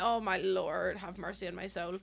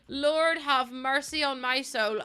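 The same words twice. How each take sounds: First: Soft, low mock plea; mock prayer. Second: Each word slow and drawn out, stress on Lord; slow, heavy Lord have mercy; slow plea. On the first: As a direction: murmur it like a prayer. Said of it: "I'm like". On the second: Acted. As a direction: sigh it out like a weary prayer. Slow repeat of the line.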